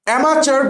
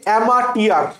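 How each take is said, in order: First: The middle consonant sounds like 'ch'. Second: The middle consonant sounds like 't'.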